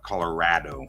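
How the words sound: The A is said very flat.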